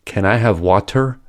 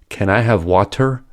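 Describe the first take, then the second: First: The t in water is aspirated and voiceless. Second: The same.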